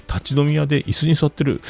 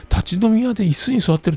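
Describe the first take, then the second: First: Said in the usual way. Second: Incredulous repeat. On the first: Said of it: "立ち飲み屋で椅子に座ってるって". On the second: Retold or imitated. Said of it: "こいつよっぽど偉い人なんやろうな".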